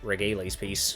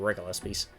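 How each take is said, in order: First: The name is said like 'Regales'. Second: The name is said like 'Regulus'. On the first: The speaker calls it wrong. "I know I pronounced it Regales piece in the Dear Days one videos I made" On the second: The speaker calls it right. "but I think it's supposed to be Regulus piece"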